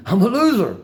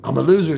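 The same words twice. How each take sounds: First: Laughing it out, a bit louder. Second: Said in the usual way. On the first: Real, not acted. Telling his viewers again he's a loser, laughing. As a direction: laugh at yourself as you repeat it.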